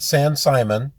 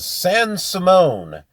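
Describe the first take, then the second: First: The name is said like Simon. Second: The name is not said like Simon. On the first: The speaker calls it wrong. "It's not San Simon" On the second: The speaker calls it right. "it's San Simone"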